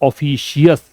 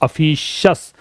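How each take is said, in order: First: The ending is two syllables, 'shee-us'. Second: The ending is one syllable, 'shus'. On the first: The speaker calls it wrong. "Not ऑफिशियस" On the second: The speaker calls it right. "It is अफिशस"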